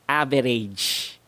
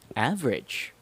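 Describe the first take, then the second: First: The unstressed vowels are full and clear. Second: The unstressed vowels are reduced to schwa. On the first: The speaker calls it wrong. "how Filipinos would usually pronounce it" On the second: The speaker calls it right. "how I pronounce it"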